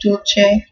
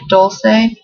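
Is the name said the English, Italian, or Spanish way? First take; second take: Italian; English. First: It is said with an Italian pronunciation. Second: It is said with an English pronunciation.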